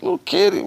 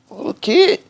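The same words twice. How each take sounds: First: Unvoiced, much higher hushed call; whispered call. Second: Put-on much higher, sing-song call to a small child. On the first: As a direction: whisper it to the kid so mom won't hear. Mom far off, softer call. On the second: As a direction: call the little kid sweetly. Calling to a kid who bumped you.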